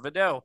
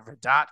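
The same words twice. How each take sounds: First: "Vidot" said vih-DOH, the T dropped; Vidot, silent T. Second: "Vidot" said VID-ot, the T sounded; Vidot with a hard T. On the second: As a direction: say "Vidot" as VID-ut, ending on a clear T. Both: Shown as a demonstration. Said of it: "whatever it is".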